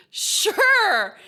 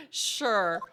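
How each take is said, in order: First: High, loud "Sure"; exaggerated sure. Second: Said in the usual way. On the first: Real, not acted. Player going along with the prison store joke, exaggerated high "Sure". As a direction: sing out "Sure" loudly, pitched way up.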